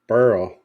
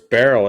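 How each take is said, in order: First: The name is said as one syllable rhyming with hurl. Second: The name is said with two syllables, like berry. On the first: This is how the name was actually said. The speaker calls it right. "but it was Beryl. Like hurl" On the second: This was the first assumed pronunciation. The speaker calls it wrong. "thought it was Beryl at first"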